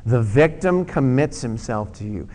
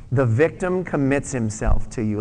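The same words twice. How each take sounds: First: Repeated aloud. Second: Congregation reading along, louder; read aloud together. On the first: Pastor repeats the verse with congregation, firm. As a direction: read it out again, firm falling end. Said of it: "Let's say it again". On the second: Pastor leads congregation in reading it aloud. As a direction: say it out loud with them. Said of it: "read that with me out loud". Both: Shown as a demonstration.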